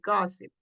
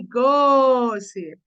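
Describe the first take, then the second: First: The first vowel is said short. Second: The first vowel is drawn out long. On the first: The speaker calls it right. "You say it short" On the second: The speaker calls it wrong. "you don't say gossip"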